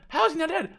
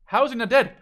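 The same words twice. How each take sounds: First: Much higher, squeakier disbelief; almost squeaking in amazement. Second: Loud, higher disbelieving cry; can't believe he's still alive; disbelief. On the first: Commentator asking again in shock, much higher pitch. Soldier survives against the odds. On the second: Commentator stunned as a soldier survives, loud disbelief. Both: Real, not acted.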